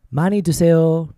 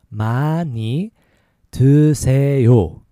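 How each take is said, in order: First: It is said faster. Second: It is said slowly.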